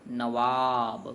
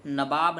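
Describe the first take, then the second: First: नवाब drawn out very slowly with a clear व; correct slow pronunciation. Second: नवाब said as nabab with b for व; wrong pronunciation. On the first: Teacher very slowly models the correct नवाब for the class. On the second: Teacher slowly models the wrong नवाब. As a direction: slowly say नवाब with a b sound, the mistake. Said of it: "नवाब नहीं होता है". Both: Shown as a demonstration.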